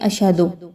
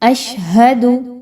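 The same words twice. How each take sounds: First: The middle h sound is left out. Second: The middle h sound is clearly pronounced. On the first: The speaker calls it wrong. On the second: The speaker calls it right.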